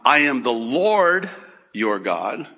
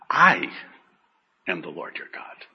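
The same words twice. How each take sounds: First: The stress is not on the word I. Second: The stress is on the word I.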